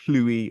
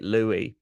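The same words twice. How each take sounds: First: The name begins with a breathy hl sound. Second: The name begins with a plain L sound. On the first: The speaker calls it right. "There's like a hl sound at the beginning" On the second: The speaker calls it wrong. "I was pronouncing it Louis, but it's not even really Louis"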